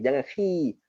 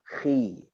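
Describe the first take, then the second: First: The vowel is said with a full smile, thin. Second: The vowel is said with the jaw lowered, dark. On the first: The speaker calls it wrong. "Jangan habis, jangan khi" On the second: The speaker calls it right. "merendahkan rahang bawah"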